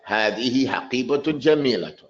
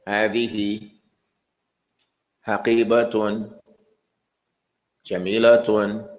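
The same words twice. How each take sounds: First: It flows as one connected sentence. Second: It stops after every single word. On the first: It conveys a message like a real sentence. The speaker calls it right. "you have to read it as if you're going to say it in English" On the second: It does not convey a message. The speaker calls it wrong. "I don't want anybody to stop at every word. Don't say"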